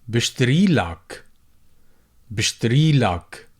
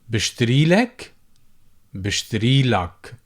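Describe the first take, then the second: The two takes are said the same way.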